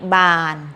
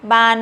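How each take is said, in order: First: The syllable is said on a level mid tone. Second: The syllable is said on a high tone. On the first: "บออานอบาน" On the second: "ไม้ตรี"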